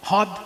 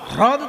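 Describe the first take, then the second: First: The r sound after h is dropped. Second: The r sound after h is pronounced. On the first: "র ফলা বাদ দিয়ে বলা হ্রদ" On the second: "হয় র ফলা দ"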